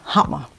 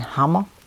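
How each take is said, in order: First: It is said with a West Danish pronunciation. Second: It is said with an East Danish pronunciation. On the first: The speaker is from western Denmark. "i Vest-Danmark siger man hammer" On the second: The speaker is from eastern Denmark. "I Øst-Danmark siger man hammer"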